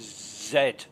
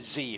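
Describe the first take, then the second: First: The letter is said the British way, zed. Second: The letter is said the American way, zee.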